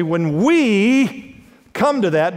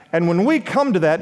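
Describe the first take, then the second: First: WE stretched long and slow; stress on WE. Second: Said in the usual way. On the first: Real, not acted. Preacher telling listeners to listen, drawn-out stress on "we". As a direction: lean hard on "we", holding the word. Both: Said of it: "now listen to me".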